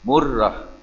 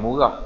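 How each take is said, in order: First: The r sound is held long and doubled. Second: The r sound is short and single. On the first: The speaker calls it right. "Ra tu ada tasydid" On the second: The speaker calls it wrong. "bukan murah"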